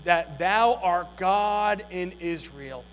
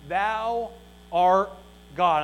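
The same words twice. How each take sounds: First: Said in the usual way. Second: Thou, art, God each set apart by a pause; slow pauses between words. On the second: Shown as a demonstration.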